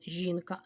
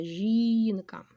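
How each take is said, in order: First: Said in the usual way. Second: "жінка" with a long drawn-out stressed "жі"; stressed first syllable. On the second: Shown as a demonstration. Teacher marking the stress for the class, stretched stressed syllable in "жінка". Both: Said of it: "Наголос поставила".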